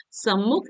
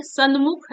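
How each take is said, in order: First: सम्मुख with a doubled m; correct form. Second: सन्मुख with a separate n before m; wrong form. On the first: Teacher correcting a sandhi error, correct double m. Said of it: "ऐसा लिखा जाता है". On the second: Teacher showing a sandhi error, wrong n sound. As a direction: say "san-mukh" for सन्मुख. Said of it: "ऐसा बिल्कुल नहीं लिखा जाता". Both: Shown as a demonstration.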